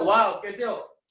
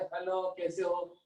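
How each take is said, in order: First: It is said in an excited, lively tone. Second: It is said in a flat, ordinary tone.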